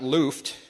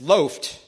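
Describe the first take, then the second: First: The vowel differs from the one in loaf. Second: The vowel sounds like the one in loaf. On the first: The speaker calls it wrong. "not loofed" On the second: The speaker calls it right. "like a loaf of bread"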